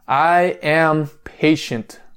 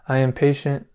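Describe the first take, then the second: First: It is said with strong passion and energy. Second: It is said flatly with little energy.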